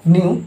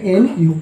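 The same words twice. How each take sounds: First: न्यू as one smooth syllable, nyoo; न्यू as a single blended sound; said as nyu. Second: एनयू said as two letters, en-yu; spelt-out letters. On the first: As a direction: say न्यू like the word new. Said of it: "वो भी न्यू ही उच्चारण होता है". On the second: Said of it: "English में एनयू कहते हैं". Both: Shown as a demonstration.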